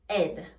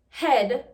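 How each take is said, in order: First: The word begins without an 'h' sound. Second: The word begins with an 'h' sound.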